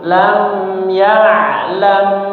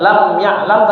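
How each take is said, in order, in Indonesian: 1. Mim ditahan dan mengalir lancar ke depan. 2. Mim dipotong pendek dan langsung melompat ke depan dengan cepat. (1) "tapi agak mengalir, lam ya'lam, nah gitu ya" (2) "bukan lam ya'lam"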